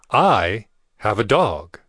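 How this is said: The word 'I' is stressed.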